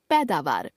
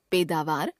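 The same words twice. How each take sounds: First: Said in the usual way. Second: पैदावार as "peda-vaar" with closed e; mispronounced ai. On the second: Shown as a demonstration. Teacher showing a common error, पैदावार with e for ai. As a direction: put "e" for "ai" in पैदावार. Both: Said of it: "ए, ऐ संबंधी अशुद्धियां".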